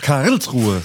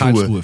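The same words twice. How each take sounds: First: The stress is on the first syllable. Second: The stress is on the second syllable. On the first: The speaker calls it right. "so muss man sagen" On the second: The speaker calls it wrong. "wie ich sag's mal falsch, Karlsruhe für mich. Betonung liegt auf dem Rills"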